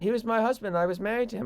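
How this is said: It is said in a British accent.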